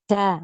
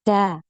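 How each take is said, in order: The two takes are said the same way.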